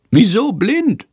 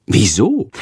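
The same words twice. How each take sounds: First: High squeaky bat voice puzzling over blind; puzzled bat. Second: Said in the usual way. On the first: A narrator's reading. Little bat Sándor puzzled by the word blind. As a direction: squeak out a baffled question.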